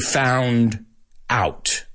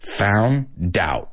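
First: The two words are said separately, without linking. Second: The D is linked onto the start of out. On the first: "I don't say found out" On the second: "The D on the end of found really goes with out"

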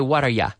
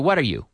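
First: The last word is reduced to 'ya'. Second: The last word is a full 'you'. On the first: "But usually we say" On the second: "We could say"

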